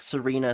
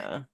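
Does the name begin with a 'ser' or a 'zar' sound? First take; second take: ser; zar. First: The name begins with a 'ser' sound. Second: The name begins with a 'zar' sound. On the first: The speaker calls it wrong. "I thought the audiobook was just kind of mispronouncing Serena" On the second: The speaker calls it right. "it's like Czarina, the rank"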